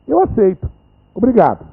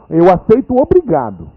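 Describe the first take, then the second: First: There is a pause before obrigado. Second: It runs on without a pause.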